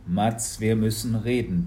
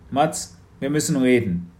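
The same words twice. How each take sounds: First: Said in the usual way. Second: A hint of a serious father; stern father, a bit louder; Papa, lightly voiced. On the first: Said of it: "ihrem ... Blick". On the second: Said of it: "sagte Papa". (ernster Vater, etwas lauter)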